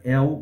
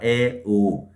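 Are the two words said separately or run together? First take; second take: run together; separately. First: The two vowels are merged into one syllable. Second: The two vowels are said as separate words. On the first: The speaker calls it right. "saem juntas" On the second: The speaker calls it wrong. "você não fala é o"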